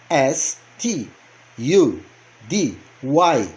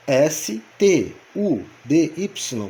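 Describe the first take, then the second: First: S, T, U, D, Y as ess, tee, you, dee, why; English letter names. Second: S T U D Y as esse, tê, u, dê, ípsilon; Portuguese letter names. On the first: Teacher spelling the verb study for learners, English letter names. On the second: Teacher spelling study in our language, slow Portuguese letter names. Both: Shown as a demonstration. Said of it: "Na nossa língua".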